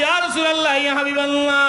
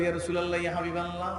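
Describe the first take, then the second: First: High, loud chanted cry; calling out. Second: Softly intoned respectful address. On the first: Woman appealing to the Prophet, calling out. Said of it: "মহিলা ডাক দিয়ে বলে". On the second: Companion addressing the Prophet, soft address. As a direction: call on him gently, keeping the volume down. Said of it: "সাহাবী গিয়ে বলে". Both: Acted.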